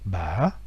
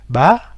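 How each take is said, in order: First: The pitch dips, then rises back moderately. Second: The pitch only rises throughout. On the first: "l'accent interrogatif ba" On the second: "l'accent aigu est beaucoup plus facile parce que ça ne fait que monter"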